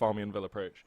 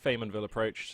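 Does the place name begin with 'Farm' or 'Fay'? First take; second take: Farm; Fay. First: The name begins with 'Farm' and has an extra syllable. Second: The name begins with 'Fay' and has fewer syllables. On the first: The speaker calls it wrong. "This map is not actually called Farmianville Approach" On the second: The speaker calls it right. "going to be calling this map correctly"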